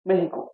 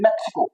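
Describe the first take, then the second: First: The middle consonant is an 'h' sound. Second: The middle consonant is a 'ks' sound. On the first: "वो मेहिको पढ़ते हैं" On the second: "हम लोग क्या पढ़ते हैं? मैक्सिको"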